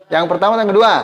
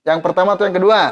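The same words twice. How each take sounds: Both takes have the same delivery.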